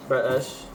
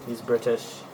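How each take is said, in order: First: BRITISH with the middle t swallowed; clipped-t British parody on "British"; mock British accent. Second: Said in the usual way. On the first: Shown as a demonstration. Mimics British way of saying British.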